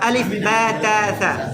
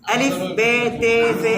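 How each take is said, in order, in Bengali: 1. অক্ষরের নামগুলো 'ah' স্বরধ্বনি দিয়ে শেষ হয়। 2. অক্ষরের নামগুলো 'ay' স্বরধ্বনি দিয়ে শেষ হয়। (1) "আরবিতে উচ্চারণটা হলো" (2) "এটা হলো উর্দু উচ্চারণ"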